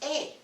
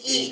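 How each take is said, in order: First: The letter is said with a Spanish vowel. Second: The letter is said with an English vowel. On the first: The speaker calls it right. "But in Spanish it's E" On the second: The speaker calls it wrong. "in English it's E"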